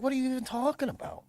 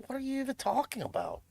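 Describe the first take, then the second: First: Higher, fast incredulous mock voice; fast mock exasperation. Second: Higher, incredulous mock voice; mock exasperation. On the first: Streamer repeating the mockery with a higher, faster incredulous voice. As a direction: rattle it off in fast disbelief. Mocking the other side again. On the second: Streamer mocking know-it-alls with a higher incredulous voice. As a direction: toss it off in disbelief.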